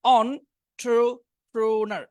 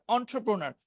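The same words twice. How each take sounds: First: "Entrepreneur" very slow, on... tro... pro-nar; syllable-by-syllable pronunciation. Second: Said in the usual way. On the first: Shown as a demonstration. Teacher correcting how the word looks, "Entrepreneur" sounded out very slowly. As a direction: break "Entrepreneur" into drawn-out separate syllables. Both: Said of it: "একটু কঠিন দেখে মনে হচ্ছে".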